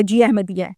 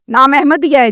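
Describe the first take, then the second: First: Retold soft, low confirmation; subdued reply. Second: Retold officer's question in usual voice; police questioning. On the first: Father confirms the name to the police, subdued. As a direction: confirm it quietly, as the questioned father. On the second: Police officer checks the boy's name with the father, questioning. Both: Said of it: "تو police نے پوچھا".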